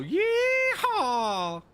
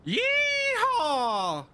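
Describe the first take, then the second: First: A slow, loud, high cowboy yeehaw, stretched long; drawn-out yeehaw. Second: High, loud cowboy whoop; cowboy yeehaw. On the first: Streamer giving chat another yeehaw, slow and loud. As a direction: hold the yeehaw like a cowboy calling across the range. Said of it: "Does that build your immersion?". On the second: Streamer performing for chat, loud high cowboy yeehaw. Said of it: "let me give you a little yeehaw". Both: Pretend.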